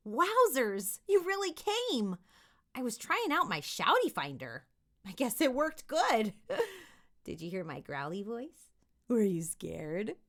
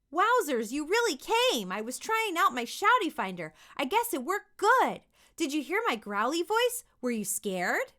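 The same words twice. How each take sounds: First: Put-on playful kid voice. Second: Loud but rote read; just reading the words. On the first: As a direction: give it a little oomph. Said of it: "that was me giving it just a little oomph". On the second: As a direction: read it off the page. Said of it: "just read the words". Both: Shown as a demonstration.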